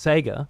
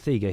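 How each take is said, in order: First: It uses the standard pronunciation of the name. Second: It uses the local Australian pronunciation of the name. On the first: This is the pronunciation used elsewhere. "I know it's Sega" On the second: This is how people in the speaker's home region say it. "it's always been Sega here"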